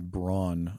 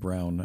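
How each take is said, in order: First: The name is pronounced the North American way. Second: The name is pronounced the German way. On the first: The speaker calls it wrong. "here in North America, it's been pronounced Braun" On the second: The speaker calls it right. "you're probably pronouncing it Brown as the Germans do and as they're supposed to"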